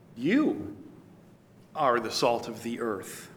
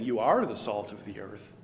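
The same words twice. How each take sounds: First: It is said as a forceful command. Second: It is said as a plain statement.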